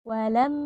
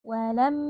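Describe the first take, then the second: No difference in how they are said.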